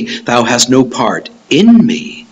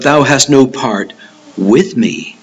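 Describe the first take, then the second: First: Slow, with "in" set apart and weighted; measured contrast emphasis on "in"; stress on IN. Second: Pause, then "with" given its own weight; measured correction, leaning on "with"; stress on WITH. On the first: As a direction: lean on "in" as the word to reject. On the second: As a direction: set "with" apart after a short pause. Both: Shown as a demonstration. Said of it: "I want you to notice it doesn't say".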